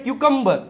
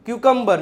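Both takes have the same delivery.

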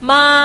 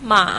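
First: The pitch stays high and level. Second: The pitch dips low and then rises.

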